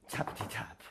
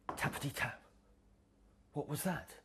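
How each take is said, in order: First: Whispered tappity tap; whispered knock. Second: Hushed tappity tap; whispered knock. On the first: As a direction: breathe it like a soft knock. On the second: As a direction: quietly knock with the voice. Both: Acted.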